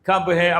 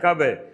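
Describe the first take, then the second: First: Both words are said fully and separately. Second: The words are merged into one reduced word. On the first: "എപ്പോഴാണ് എന്ന് ചോദിക്കുമ്പോൾ കബ് ഹേ" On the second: "ഇവരുടെ ശൈലി അതാ"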